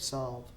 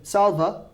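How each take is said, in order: First: A faint vowel sound follows the final V. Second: A full vowel sound follows the final V. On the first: The speaker calls it right. "we're going to pronounce it with a soft A" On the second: The speaker calls it wrong. "I don't want you saying salva, because that's not a word"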